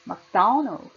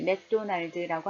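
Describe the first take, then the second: First: The syllable 'do' is loud; the others are weak. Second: All syllables are said with equal strength. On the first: The speaker calls it right. "액센 도에 강하게 주고요. 날드 작게 합니다" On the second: The speaker calls it wrong. "한국어는 강세를 그렇게 강조하지 않잖아요. 그래서 똑같이 맥도날드라고 합니다"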